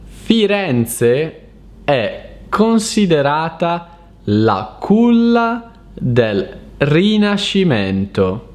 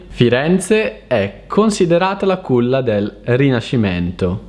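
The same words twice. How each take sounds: First: It is read slowly and carefully. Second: It is read fast, at natural speed.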